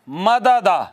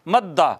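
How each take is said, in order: First: The two d sounds are separated by a vowel. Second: The two d sounds merge into one long d. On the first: "दो दालें इकट्ठी आई हैं, ... और दोनों मुतहर्रक हैं" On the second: "फिर भी इदगाम कई जगहों पे कर देते हैं। इसको मद्दा कहते हैं।"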